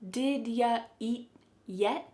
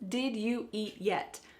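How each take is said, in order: First: You is reduced to ya; did stays. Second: Every word is said fully, without reduction. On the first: "Here the word you is being reduced to ya" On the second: "This means"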